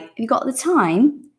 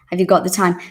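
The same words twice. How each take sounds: First: "Have you got the time?" run together fast, rising at the end; quick slurred question, rising on "time"; said very quickly. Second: Said in the usual way. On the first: Shown as a demonstration. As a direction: rattle the question off in one breath. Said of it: "When you say it very quickly, it's like". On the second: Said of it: "When you say it very quickly".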